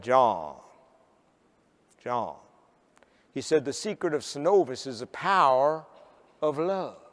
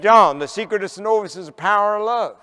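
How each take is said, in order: First: Low, slow Southern drawl with long pauses; strong Southern drawl. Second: Louder, higher Southern drawl in one run; repeated Southern drawl. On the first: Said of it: "In his strong Southern drawl". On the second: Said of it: "Could you say that again?". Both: Retold or imitated.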